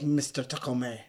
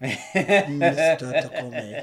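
First: Lightly voiced movie villain; a hint of the villain's odd pronunciation; Alan Rickman. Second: Very slow, louder villain imitation; Alan Rickman. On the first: Co-host lightly imitating how the villain says a name, oddly intoned. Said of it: "He'd be like". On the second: Co-host imitating the villain's weird delivery, hugely drawn out. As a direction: stretch the name out weirdly, louder. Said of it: "He says it really weird".

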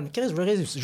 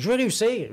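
First: Said in the usual way. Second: «je veux réussir» higher and louder, stress on «veux»; insistent repeat. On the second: Retold or imitated.

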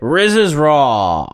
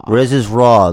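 First: Slow, drawn-out show intro; show announcer. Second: Punchy repeat of the title; louder echo. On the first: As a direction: announce it like a TV host. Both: Acted.

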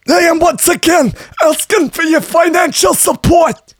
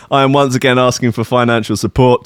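First: Much higher, shouted old-politician rant in a put-on voice; hammed-up shouting old senator; Bernie Sanders impression. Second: Said in the usual way. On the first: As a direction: bellow it like a fired-up campaign speech. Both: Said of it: "my best Bernie Sanders impression".

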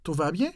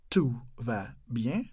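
First: Said in the usual way. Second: "Tout va bien" slowly and softly, a pause between words. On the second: Shown as a demonstration. Teacher asking it slowly for learners to copy. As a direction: separate "Tout", "va", "bien", rising on the last.

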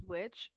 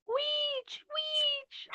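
First: Said in the usual way. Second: Very high-pitched mock yell; imitated yell. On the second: Co-host mimics the woman who spots witches, high mock yell. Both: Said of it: "the woman yells".

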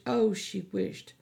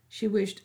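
First: Oh, she wished drawn out slowly with longing; wistful emphasis. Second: Said in the usual way. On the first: A narrator's reading. Narrator echoing Melly's regret, slow and longing. Repeated phrase, second slowed.

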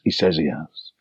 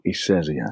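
First: "He says he has" low and quiet, the half rhyme of says and has brought out; a lower, hushed echo on "says" and "has"; rhythmic demo. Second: Dry, low, quiet doubting tone; a skeptical friend not buying it; softly doubtful mate voice; cynical mate. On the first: Shown as a demonstration. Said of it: "There's two he's in the sentence". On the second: Retold or imitated. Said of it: "her mate was a bit more cynical".

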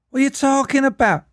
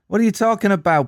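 First: High-pitched botched American turning Scouse; squeaky mock Scouse accent; accidental Scouse. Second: Higher-pitched mock American accent; hammed-up American film line. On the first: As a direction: attempt American and slip into Scouse. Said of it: "what I went Scouse". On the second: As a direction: put on an indignant American voice. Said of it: "imagine this in an American accent then".

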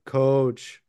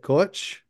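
First: "Coach" with a simple drawn-out long O, falling; plain long O. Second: "Coach" with a tight O gliding into a W; Minnesota accent. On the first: Showing how it isn't said, "Coach" with plain long O. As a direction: stretch the O in "Coach", no second syllable. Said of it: "if you just do a long O". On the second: Explaining the accent to friends, "Coach" in Minnesota vowels. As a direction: say "Coach" Minnesota-style, rising at the end. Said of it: "'Cause the accent would say it". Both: Shown as a demonstration.

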